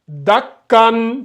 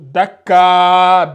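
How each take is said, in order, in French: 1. Le mot finit par un son n. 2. Le mot finit par une voyelle a longue. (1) "on respecte bien, on lit bien" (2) "si tu appliques la règle ici... ça serait faux"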